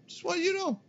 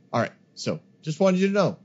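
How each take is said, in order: First: Much higher, soft, playful singsong; squeaky high voice. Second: Said in the usual way. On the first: Pretend. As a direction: squeak it out teasingly. Repeats line in squeaky voice.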